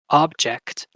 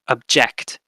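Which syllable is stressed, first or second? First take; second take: first; second. First: The stress is on the first syllable. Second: The stress is on the second syllable. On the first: It is the noun, a thing. "if it's on the first syllable" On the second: It is the verb, to protest. "if you put it on the second syllable"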